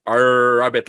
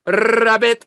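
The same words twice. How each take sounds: First: Put-on "rabbit" in a thick accent, drawn-out R. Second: "rabbit" with a long Latino rolled R, high and loud; Latino accent. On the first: Learner practising the letter R in class, thick accent. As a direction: exaggerate a thick accent on "rabbit", louder, stretching the R. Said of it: "I have a thick accent". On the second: Retold or imitated. Latino classmate practising R rabbit, loud rolled-R accent. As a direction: trill the R hard in a mock Latino accent. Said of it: "she's Latino".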